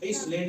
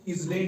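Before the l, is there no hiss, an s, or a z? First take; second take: s; z. First: An s sound is heard before the l. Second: A z sound is heard before the l. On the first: "या एस इसलैंड नहीं पढ़ना है" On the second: "इसको इजलैंड नहीं पढ़ना है"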